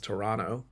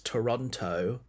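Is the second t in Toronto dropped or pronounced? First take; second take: dropped; pronounced. First: The second t is dropped. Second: The second t is clearly pronounced. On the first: This is how others say it should be said. "but I'm told is Toronto" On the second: This is how the speaker naturally says it. "what I would say is Toronto ... it's got T's in it"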